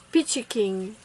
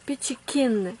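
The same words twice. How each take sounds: First: KING said with a closing "ng" sound; first-try English pronunciation. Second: Kin ending on a clean "n", no "g"; self-corrected English pronunciation. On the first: Nail vlogger naming her orange polish, first-try English pronunciation ending King in "ng". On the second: Nail vlogger fixing the polish name, self-corrected pronunciation with Kin ending in "n". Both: Real, not acted. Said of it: "Excusez mon accent anglais".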